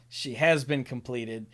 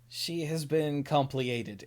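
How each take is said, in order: First: The last word is said like plain 'completed'. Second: The last word is said as 'com-plee-ated'. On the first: The speaker calls it right. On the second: The speaker calls it wrong.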